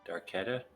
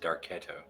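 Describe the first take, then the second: First: The name ends in an 'ah' vowel. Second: The name ends in an 'oh' vowel. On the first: The speaker calls it wrong. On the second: The speaker calls it right.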